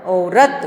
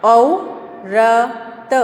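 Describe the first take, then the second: First: Said in the usual way. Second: औरत drawn out very slowly; teacher drawling औरत slowly; slow stretched reading. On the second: Shown as a demonstration. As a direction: stretch औरत syllable by syllable for a child. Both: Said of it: "यहाँ देखिए".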